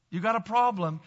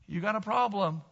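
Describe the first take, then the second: No difference in how they are said.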